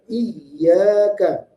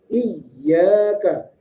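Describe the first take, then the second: Both takes have the same delivery.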